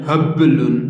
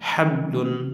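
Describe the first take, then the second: First: The b has a strong, heavy bouncing echo. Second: The b has a light, slight bouncing echo. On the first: The speaker calls it wrong. "এভাবে হবে না" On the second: The speaker calls it right. "এভাবে হবে"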